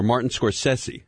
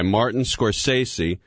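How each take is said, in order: First: Scorsese with a short e, skor-SESS-ee; Scorsese, middle syllable rhyming with mess; alternate pronunciation. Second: Scorsese with a long SAY in the middle, skor-SAY-see; Scorsese, middle syllable rhyming with day; alternate pronunciation. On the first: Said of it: "How do you pronounce that". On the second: Offers two pronunciations of name. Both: Shown as a demonstration.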